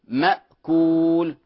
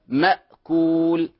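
Both takes have the same delivery.

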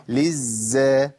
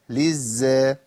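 Both takes have the same delivery.

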